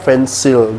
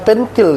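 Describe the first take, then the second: First: The middle consonant is an S sound. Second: The middle consonant is a K sound. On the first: The speaker calls it right. "Dibaca pensil" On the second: The speaker calls it wrong. "Nggak dibaca penkil kan?"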